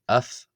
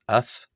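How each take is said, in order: First: The word ends with an f sound. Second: The word ends with an f sound.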